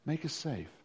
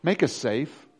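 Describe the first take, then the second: First: Quiet echo. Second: Said in the usual way. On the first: Shown as a demonstration. Preacher repeating the plea to the church, much softer. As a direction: Make us safe. dropped much softer.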